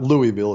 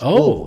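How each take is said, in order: First: The name is said clearly, every syllable distinct. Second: The name is mumbled, syllables slurred together. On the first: The speaker calls it wrong. "It's not Louisville" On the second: The speaker calls it right. "say it like you got a mouthful of yogurt"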